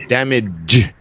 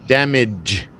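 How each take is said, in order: The two takes are said the same way.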